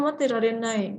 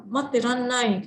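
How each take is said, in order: First: "materarenai" with every syllable sounded; uncontracted "materarenai"; full form. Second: "materarenai" contracted to "materannai"; fast contracted form. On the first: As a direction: say "materarenai" in full, keeping "ra-re" separate. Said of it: "Kalau kita bingung". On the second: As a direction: swallow the "re" in "materarenai", doubling the n. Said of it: "merekanya ngomongnya cepet ya misalnya". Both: Shown as a demonstration.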